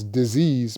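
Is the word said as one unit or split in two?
one unit. The word is said smoothly as one unit. It names an illness. "So it's disease"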